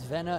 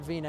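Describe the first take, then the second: First: The first syllable has a 'veh' vowel. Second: The first syllable has a 'vee' vowel. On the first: The speaker calls it right. "the way to pronounce the last name is Vena" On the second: The speaker calls it wrong. "It's not Vina"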